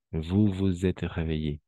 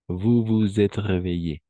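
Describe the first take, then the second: First: Said in the usual way. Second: Slow and clear, each word separate; slow model sentence. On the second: Shown as a demonstration. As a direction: spell it out aloud for students. ("Vous vous êtes réveillés" dicho lento y claro) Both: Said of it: "à onze heures".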